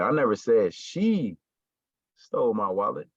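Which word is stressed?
she. The stress falls on the word she. Someone else took the wallet. "somebody did it, but it wasn't her"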